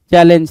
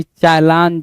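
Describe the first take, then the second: First: Said in the usual way. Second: चैलेंज with "laan" for "len"; misspelt pronunciation. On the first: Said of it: "C H A double L E N G ई होता है". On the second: Shown as a demonstration. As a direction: read चैलेंज by its wrong spelling, "cha-LAAN-je". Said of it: "C H A double L A N G". (चैलेंज को "चलांजे" जैसा बोलें)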